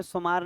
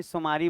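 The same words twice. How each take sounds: First: सोमवार said as 'somaar', ending on the r; rejected pronunciation. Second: सोमारी with an added final 'ee'; local pronunciation. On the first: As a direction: say सोमवार contracted to 'so-maar', no final 'ee'. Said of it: "सोमवार नहीं, सोमारी बोलना है". (सोमवार को 'सोमार' बोलना, अंत में 'ई' के बिना) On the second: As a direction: say सोमारी as 'so-maa-ree', ending on a long ee. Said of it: "सोमारी बोलना है". (सोमारी, अंत में लंबी 'ई' के साथ) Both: Shown as a demonstration.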